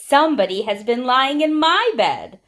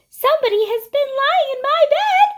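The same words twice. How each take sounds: First: It is said in a middle-sized voice. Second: It is said in a small, high voice.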